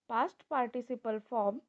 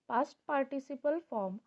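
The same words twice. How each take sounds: No difference in how they are said.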